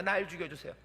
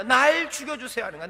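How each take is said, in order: First: Soft, hushed plea to be taken; quiet plea. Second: Said in the usual way. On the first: Pretend. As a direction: beg God quietly to die. Moses pleading quietly.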